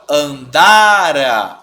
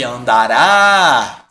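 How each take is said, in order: First: "andara" very slow and louder, stress on "da"; "andara", drawn out, with the weight on "da". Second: "andará" very slow and louder, stress on "rá"; "andará", drawn out, landing on the final "rá"; stress on the end. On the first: Teacher to class, drawing out "andara" to show its stressed syllable. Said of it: "a minha sílaba tônica tá aqui". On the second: Teacher to class, drawing out "andará" to show its final stressed syllable. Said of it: "Eu tenho uma oxítona". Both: Shown as a demonstration.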